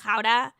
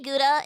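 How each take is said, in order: First: Gouda with a throaty Dutch G; Gouda in native Dutch pronunciation. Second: Gouda with an English G; Gouda in anglicized pronunciation. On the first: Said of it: "things that I do refuse to pronounce". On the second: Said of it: "I do say Gouda instead of". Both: Shown as a demonstration.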